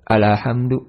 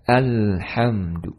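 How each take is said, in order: First: A vowel is added after the lam. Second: The lam has no vowel after it. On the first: The speaker calls it wrong. "memberikan harokat padanya, ya, nggak boleh juga" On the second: The speaker calls it right.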